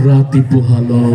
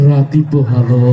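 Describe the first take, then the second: No difference in how they are said.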